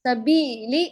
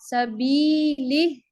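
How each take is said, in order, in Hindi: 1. स्वर छोटा रखा गया है। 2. स्वर को और लंबा खींचा गया है। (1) "सबीली ऐसे नहीं" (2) "थोड़ा सा खींचे इसको"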